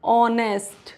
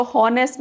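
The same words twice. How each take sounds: First: "ऑनेस्ट" opening on the vowel, H dropped; correct, silent H. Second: "हॉनेस्ट" with a sounded H at the start; mispronounced with H. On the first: Teacher answering how to read it, "ऑनेस्ट" with silent H. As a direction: say "ऑनेस्ट" with no H at all. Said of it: "तो क्या पढ़ेंगे?". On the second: Teacher warning learners of the mistake, "हॉनेस्ट" with the H sounded. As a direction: say "हॉनेस्ट" wrongly, voicing the H. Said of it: "इसको हॉनेस्ट नहीं पढ़ेंगे". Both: Shown as a demonstration.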